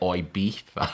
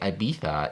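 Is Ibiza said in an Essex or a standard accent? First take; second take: Essex; standard. First: It is said in an Essex accent. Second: It is said in a standard accent. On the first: "you should say" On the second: "Instead of saying"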